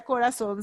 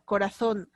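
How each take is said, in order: First: Corazón with the z said as a plain s, corasón; no lisp, a clean s in corazón; Latin American seseo. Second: Corazón with the z said as a lisped th, coraTHón; Castilian lisp. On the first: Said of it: "Nosotros decimos". (corazón con seseo, la z como s) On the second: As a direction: interdental z in corazón, tongue between the teeth. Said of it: "Ellos dicen". (corazón con la z interdental, como en España) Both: Shown as a demonstration.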